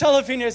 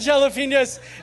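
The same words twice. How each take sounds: First: The opening j sound is left silent. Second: The opening j sound is clearly pronounced. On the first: The speaker calls it right. "It's silent" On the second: The speaker calls it wrong. "It's not jalapenos"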